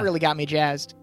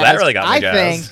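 First: The tone sounds flat and sarcastic. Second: The tone sounds sincere and excited. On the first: The speaker seems not to mean it. The speaker calls it wrong. "You sound sarcastic when you say it like that" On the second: The speaker genuinely means it. The speaker calls it right. "No, I was jazzed"

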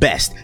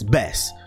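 First: The word ends with a clear t sound. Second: The word ends in s with no t. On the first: "not best" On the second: "That's B-E-S-S"

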